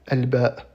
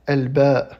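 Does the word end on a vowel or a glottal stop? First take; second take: glottal stop; vowel. First: The word ends with a bare glottal stop. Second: The word ends with a final vowel after hamza. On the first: "une coupure simple qu'on lit comme s'il y avait un soukoun" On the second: "son nom en arabe est"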